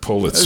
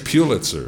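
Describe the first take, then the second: First: The first syllable sounds like 'pull'. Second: The first syllable does not sound like 'pull'. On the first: The speaker calls it right. "It's like a pullet" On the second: The speaker calls it wrong. "Because they mispronounce it"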